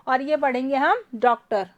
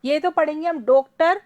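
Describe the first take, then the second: First: डॉक्टर read with the open "aw" as in English doctor; डॉक्टर with the rounded open vowel; ardhchandra reading. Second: डॉक्टर read with the closed "o" of doe; डॉक्टर with a pure long o; o-matra reading. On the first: Teacher contrasting the two matras for students, modelling the open aw. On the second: Teacher contrasting the two matras for students, modelling the closed o. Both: Shown as a demonstration. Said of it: "आ गया pronunciation में फ़र्क".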